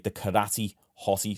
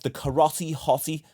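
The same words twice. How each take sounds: First: It is said in an English accent, not rhyming. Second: It is said in an American accent, rhyming. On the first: "whereas I say the karate hottie. So it doesn't actually rhyme in English" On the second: "as you Americans say"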